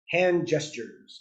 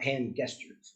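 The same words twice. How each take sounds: First: Gestures begins with a J sound. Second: Gestures begins with a hard G sound. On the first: The speaker calls it right. "it's pronounced hand gestures" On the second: The speaker calls it wrong. "not hand gestures"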